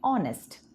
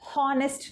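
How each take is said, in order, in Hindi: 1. इस शब्द की शुरुआत सीधे स्वर से होती है। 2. इस शब्द की शुरुआत एच की आवाज़ से होती है। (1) "आपको सिर्फ बोलना है ऑनेस्ट" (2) "आपको एच हॉनेस्ट नहीं बोलना है, वो गलत होगा।"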